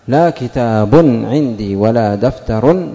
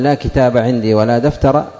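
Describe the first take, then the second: First: The nouns end in -un with nunation. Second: The nouns end in a short vowel without nunation. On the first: "هذا ألغيتها" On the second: "هذا إعمالها أعملتها"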